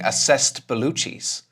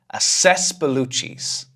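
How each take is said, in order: First: The d is pronounced, with a stop before Bellucci's. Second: The d is dropped, flowing straight into Bellucci's. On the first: The speaker calls it wrong. "I'm not saying assessed Bellucci's because I have to stop talking" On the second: The speaker calls it right. "So I just take that d and I throw it away. I say assess Bellucci's"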